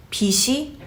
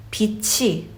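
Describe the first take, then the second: First: 빛이 said with an s sound, "bi-shi"; wrong pronunciation. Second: 빛이 said with a rolled-over "chi" sound; proper pronunciation. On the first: Teacher demonstrates how debt gets mispronounced, wrong pronunciation. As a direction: soften the middle of 빛이 into "shi". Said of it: "in a wrong way, by saying it as". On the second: Teacher shows the proper way of saying light, linked sound. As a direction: link 빛이 as "bi-chi", aspirated. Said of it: "the proper way of saying light". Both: Shown as a demonstration.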